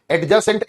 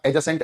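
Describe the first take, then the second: First: एडजेसेंट said with a clear d sound, ad-jacent; wrong pronunciation with d. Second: एडजेसेंट said as a-jacent, with the d silent. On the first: Teacher showing the class the mistake, pronouncing the d in एडजेसेंट. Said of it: "एडजेसेंट angle होता है". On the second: Teacher giving the class the correct form, d silent in एडजेसेंट. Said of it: "एडजेसेंट angle नहीं होता". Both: Shown as a demonstration.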